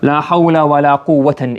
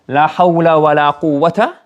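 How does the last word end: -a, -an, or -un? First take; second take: -an; -a. First: The last word ends in 'an'. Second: The last word ends in a short 'a'. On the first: "or mansub. La mansub would mean here with tanween as well" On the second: "the second word can either be mabni al-fath"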